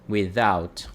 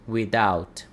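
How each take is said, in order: First: The middle consonant is a th sound. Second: The middle consonant is a d sound. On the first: "A pronúncia ela é feita aqui na, com a língua e o dente" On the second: "vou pronunciar com o som de D"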